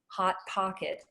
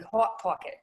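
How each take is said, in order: First: The O vowel is open and unrounded. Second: The O vowel is rounded, closer to AW.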